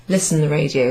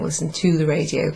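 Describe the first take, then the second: First: Said in the usual way. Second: "to" given the emphasis; stress on TO. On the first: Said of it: "You just use the verb". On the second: Shown as a demonstration. Teacher showing the word not translated, stress on "to". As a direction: make "to" the word that stands out. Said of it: "translate the word to after it".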